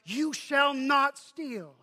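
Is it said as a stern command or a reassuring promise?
command. It is said as a stern command.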